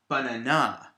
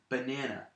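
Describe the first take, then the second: First: The stress is on the last syllable. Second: The stress is on the middle syllable. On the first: The speaker calls it wrong. "if I put the stress on the last syllable" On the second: The speaker calls it right. "two unstressed syllables and one stressed syllable"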